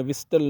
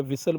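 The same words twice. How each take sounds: First: "विस्टल" with an audible T after S; wrong, T sounded. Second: "विसल" with S straight into L; silent T. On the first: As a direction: say "विस्टल", pronouncing the T. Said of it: "नहीं बोलते हैं". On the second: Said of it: "बोलते हैं". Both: Shown as a demonstration.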